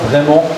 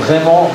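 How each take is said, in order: Both takes have the same delivery.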